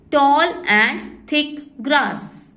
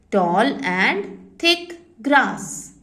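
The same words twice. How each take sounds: First: Words stretched far apart; very slow dictation. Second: Words stretched far apart again, calm; very slow dictation. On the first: Teacher dictating to children, very slowly. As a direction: drag it out for copying. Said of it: "dictating meaning". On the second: Teacher repeating for the class, very slowly. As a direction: read it slowly once more. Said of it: "repeating dictation". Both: Shown as a demonstration.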